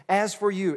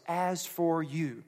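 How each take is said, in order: First: "As for you" with the stress on "for", louder and punchy; emphatic "As for you", said louder. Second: Said in the usual way. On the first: Shown as a demonstration. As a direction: hit "As for you" hard on "for". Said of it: "it's an emphatic you". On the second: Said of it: "it's a phrase for us".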